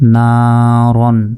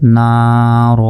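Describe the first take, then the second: First: The word ends with an 'an' sound. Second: The word ends with a long 'a' sound. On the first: The reading continues without stopping. "র দুই জবর রন" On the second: The reader stops at this word. "যদি ওয়াকফ করি"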